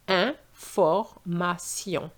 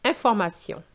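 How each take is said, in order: First: Information slowly, broken into syllables, an-for-ma-syon; slow, spelled-out French information. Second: Information said smoothly as one French word, an-for-ma-SYON; flowing French Information. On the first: Teacher breaks the word into parts, very slow. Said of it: "we have this sound sion". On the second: Teacher joins the syllables back together, smooth French. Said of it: "repeat it in one straight way". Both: Shown as a demonstration.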